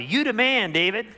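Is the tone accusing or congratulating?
congratulating. It sounds like casual, admiring praise.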